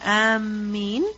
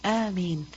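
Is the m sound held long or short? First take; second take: long; short. First: The m sound is doubled and held long. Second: The m sound is single and short. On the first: It means those who are intending. The speaker calls it wrong. "If you put a shadda on the meem" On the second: It is the word said after the prayer's opening chapter. The speaker calls it right. "Alif has a mad on it. Meem has no shadda"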